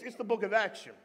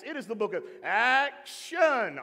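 First: Said in the usual way. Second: ACTION drawn out slowly with showman punch; children's church hype. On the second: Shown as a demonstration. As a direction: sell "action" big, stretching both syllables. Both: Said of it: "That's back in my children's church days".

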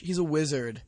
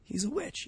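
First: Said in the usual way. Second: Hushed accusation; whispered. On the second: Acted. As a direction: whisper it like a secret. Conspiratorial accusation.

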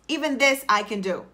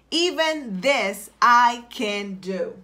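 First: Said in the usual way. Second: Drawn-out, half-speed declaration; slow, deliberate affirmation. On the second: Shown as a demonstration. Coach gives listeners a phrase to type, slow deliberate affirmation. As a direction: stretch out each word with conviction.

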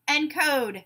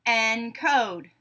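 First: Said in the usual way. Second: "Encode" split in two, en-code; syllable by syllable. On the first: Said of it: "you tell me the whole word". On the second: Shown as a demonstration. Teacher giving a word to blend, said syllable by syllable. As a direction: say "Encode" as two separate beats. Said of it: "say the syllables in a word".

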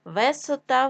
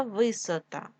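First: Висота said as Весота; е in first syllable. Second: Said in the usual way. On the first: Shown as a demonstration. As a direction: open e after В in Висота. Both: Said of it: "вись".

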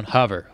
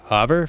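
First: Said in the usual way. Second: "Hover?" rising and louder; questioning echo. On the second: Acted. Pilot queries the instruction, rising "Hover?". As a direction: echo "Hover?" back as a query.

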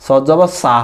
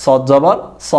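First: "সা" with an open, drawn-out aa; wrong Bangla reading. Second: "স" with a rounded o-like vowel; correct Arabic sad. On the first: Teacher showing the wrong Bangla reading of sad, mispronounced. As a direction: stretch "সা" with a plain Bangla aa vowel. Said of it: "কিন্তু এটা সঠিক উচ্চারণ না". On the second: Teacher showing students Arabic sad with zabar, correct pronunciation. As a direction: say "স" full and rounded, not "সা". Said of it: "জবর দিয়ে উচ্চারণ করব". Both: Shown as a demonstration.

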